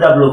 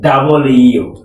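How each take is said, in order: First: The letter name is squeezed into two syllables. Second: The letter name is said in three full syllables. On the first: The speaker calls it wrong. "ডাব্লু ডাব্লু বলে, হবে না" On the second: The speaker calls it right. "হবে কি? ডাবল ইউ।"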